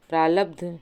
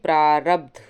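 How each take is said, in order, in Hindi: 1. दूसरे व्यंजन का उच्चारण l की तरह होता है। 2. दूसरे व्यंजन का उच्चारण r की तरह होता है। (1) "प्रालब्ध नहीं होगा" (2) "ला की जगह रा होगा"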